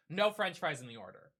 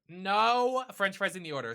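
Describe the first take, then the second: First: Said in the usual way. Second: "No French fries" louder and punched, stress on "No"; emphatic repeat. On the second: Real, not acted. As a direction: hammer the complaint home, louder.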